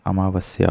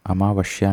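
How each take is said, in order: First: अमावस्या said as "amavasya"; plain s before the y in अमावस्या; correct s sound. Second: अमावस्या said as "amavashya"; "amavashya" for अमावस्या, as the error; wrong sh sound. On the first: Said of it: "होता है". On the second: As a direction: put sh before the y in अमावस्या. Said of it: "नहीं होता". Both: Shown as a demonstration.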